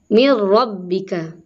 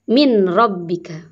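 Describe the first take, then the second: First: The n merges fully into the following r. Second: The n is pronounced clearly before the r. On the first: The speaker calls it right. "Tapi dibacanya mir rabbika" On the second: The speaker calls it wrong. "Tidak boleh min rabbika"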